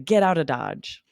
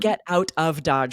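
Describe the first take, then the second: First: 'Out of' is run together as 'outa'. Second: 'Out of' is said as two separate words. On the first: "We run those together and say outa" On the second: "we don't say I got out of Dodge or we need to get out of Dodge"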